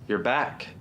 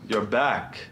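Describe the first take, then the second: First: It is said in the speaker's own natural voice. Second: It is said in an altered, put-on character voice. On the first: The speaker calls it right. "He sounds like me" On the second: The speaker calls it wrong. "He doesn't sound like that"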